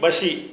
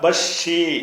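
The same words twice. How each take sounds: First: The middle consonant is short, single. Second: The middle consonant is doubled, held longer. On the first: "அந்த ஷத்து இல்லாட்டி பஷி" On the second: "ஷத்து இருந்தா பஷி"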